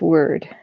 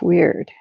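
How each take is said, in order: First: The word is said like 'word'. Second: The word is said like 'weird'. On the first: The speaker calls it right. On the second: The speaker calls it wrong.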